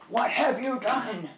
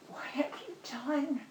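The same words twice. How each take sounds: First: It sounds angry and accusing. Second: It sounds sad and heartbroken.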